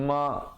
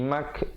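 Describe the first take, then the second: First: The vowel is followed by a glottal stop. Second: The vowel is followed by a k sound. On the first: "ataupun ma huruf hamzah" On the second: "jangan bunyi mak jadi huruf kaf"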